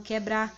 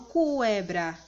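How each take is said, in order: First: No 'w' sound follows the 'k' sound. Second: A 'w' sound follows the 'k' sound. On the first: The speaker calls it right. "Vocês falam quebrar, apenas o som do Q é pronunciado" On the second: The speaker calls it wrong. "vocês não falam cuebrar"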